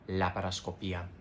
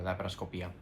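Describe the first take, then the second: First: The word is said at a normal pace. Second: The word is said fast and run together. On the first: "You have to say laparoscopia" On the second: "Even if you say it really fast, just kind of run it together"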